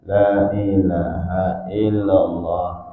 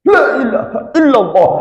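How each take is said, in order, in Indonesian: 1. Diucapkan dengan pelan dan lemah. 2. Diucapkan dengan keras dan tegas. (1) "Coba kalau lembek kali" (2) "Begitu disentakkannya kalimat la ilaha illallah, suara yang kuat itu"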